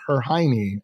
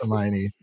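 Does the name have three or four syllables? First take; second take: three; four. First: The name is said as three syllables, her-hiney. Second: The name is said as four syllables, her-my-oh-nee. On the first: A child is mispronouncing the name. The speaker calls it wrong. "She would say her Hiney" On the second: This is the intended pronunciation of the name. The speaker calls it right. "that's Hermione"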